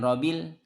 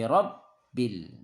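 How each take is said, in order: First: The b is said once, short. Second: The b is pressed and held doubled. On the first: The speaker calls it wrong. "jangan robil" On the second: The speaker calls it right. "tapi rob bil"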